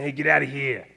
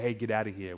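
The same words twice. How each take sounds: First: It is said in a Boston accent. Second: It is said in a neutral accent.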